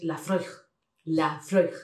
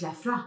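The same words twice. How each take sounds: First: LAPHROAIG as "la-FROIG", with "oi"; correct pronunciation. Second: LAPHROAIG as "la-FRWAH"; French-style mispronunciation. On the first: Shown as a demonstration. Teacher corrects it, "la-FROIG" twice. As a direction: repeat "la-FROIG" carefully, set apart. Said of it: "es Laphroaig". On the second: Retold or imitated. Teacher rejects the French reading, "la-FRWAH". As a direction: open "wah" ending on LAPHROAIG. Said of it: "Y no es".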